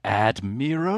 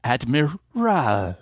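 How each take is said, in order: First: "Admiral" as a put-on question, rising on the last syllable; stress-point imitation. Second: "Admiral" drawn out slowly, last syllable lengthened and falling; stress-point imitation. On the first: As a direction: try "Admiral" with a theatrical rising end. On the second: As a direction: land theatrically on the "ral" of "Admiral". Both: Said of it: "tries out all of the potential stress points".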